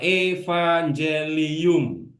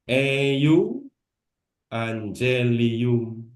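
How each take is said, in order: First: The letter is read as a v sound. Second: The letter is read as a u sound. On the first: "kalau ada kata evangelium" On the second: "bisa dibaca eu angelium"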